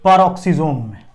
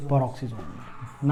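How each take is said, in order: First: Answers his own question slowly. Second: Repeats peroxisome में much softer and slower; drops his voice to let it sink in. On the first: Teacher slowly answering his own quiz question. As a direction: spells out the answer slowly for the class. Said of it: "किसमें?". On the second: Teacher quietly repeating the answer for the class. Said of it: "कहां enter कर गया?". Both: Shown as a demonstration.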